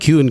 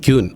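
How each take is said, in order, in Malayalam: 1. ഈ വാക്ക് 'ky' ശബ്ദത്തിലാണ് തുടങ്ങുന്നത്. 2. ഈ വാക്ക് 'ky' ശബ്ദത്തിലാണ് തുടങ്ങുന്നത്.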